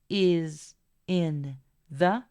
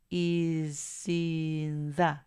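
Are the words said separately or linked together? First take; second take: separately; linked. First: The three words are said separately. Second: The three words run together as one. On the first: "haciendo que is in the" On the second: "suene como is in the"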